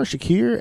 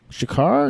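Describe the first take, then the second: First: "Shakir" said with the stress on the second syllable, "sha-KEER", rising; corrected name. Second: "Shakar" said with a tentative, questioning rise; unsure name attempt. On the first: Reading the actor's name off the screen, "Shakir" with a rise. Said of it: "S H A K I R". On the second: Searching for the actor's name, a hesitant "Shakar". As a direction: try out "Shakar", not sure of it. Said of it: "Mustafa Sha". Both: Shown as a demonstration.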